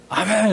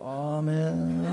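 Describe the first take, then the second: First: It is said loudly with energy. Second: It is said sleepily with low energy.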